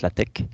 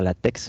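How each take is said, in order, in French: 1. Le X final ne se prononce pas 'ks'. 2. Le X final se prononce 'ks'. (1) "mais en fait ça se prononce LaTeX" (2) "puisqu'en fait il y a un X, on devrait dire LaTeX"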